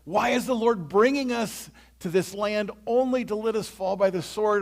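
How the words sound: It sounds despairing and hopeless.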